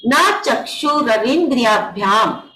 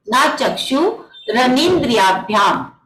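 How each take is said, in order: First: Said in the usual way. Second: ना चक्षुरनिंद्रियाभ्याम said slowly, each syllable drawn out; slow it right down so students can follow each syllable of ना चक्षुरनिंद्रियाभ्याम; slow recitation. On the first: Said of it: "देखिए ये चक्षुर ऐसे नहीं पढ़ेंगे". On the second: Shown as a demonstration. Teacher repeating the sutra for the Zoom class, slow careful recitation. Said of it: "तो देखिए".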